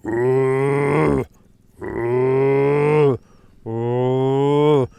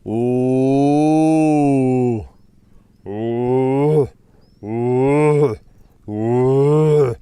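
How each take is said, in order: First: Another round of mock roar hoots, a touch steadier; corrected lion roar impression. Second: Loud, hooting mock lion roars; lion roar impression. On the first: Keeper correcting his lion impression, mock roaring again. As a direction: redo the roar calls, trying to get it right. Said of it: "It's something like that". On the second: Keeper doing his best lion roar for viewers, loud mock roar. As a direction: belt out a series of booming roar calls, hammed-up. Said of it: "I'm gonna try and do my best Suja impersonation".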